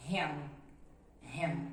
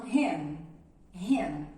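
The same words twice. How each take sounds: First: "ham" said with lips closed on the final m. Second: "ham" with the mouth left open at the end, sounding like hen. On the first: Teacher modelling "ham" with lips closed at the end. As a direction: close the mouth fully on the m of "ham". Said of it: "o correto é pronunciarmos". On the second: Teacher imitating students' open-ended "ham". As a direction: students saying "ham" without closing the lips. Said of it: "alunos que não fecham e falam". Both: Shown as a demonstration.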